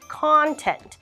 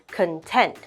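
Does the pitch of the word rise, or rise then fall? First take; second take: rise then fall; rise. First: The pitch rises then falls like an arc. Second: The pitch goes up across the word. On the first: It is a noun meaning the material inside. "You'll notice it's going like an arc" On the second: It is an adjective meaning satisfied. "You will notice the intonation for content goes up"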